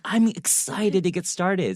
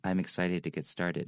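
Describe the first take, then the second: First: It is said excitedly, with lively pitch movement. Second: It is said flatly, with little pitch movement. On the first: The speaker calls it right. "You have to really be like" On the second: The speaker calls it wrong. "That doesn't sound excited at all"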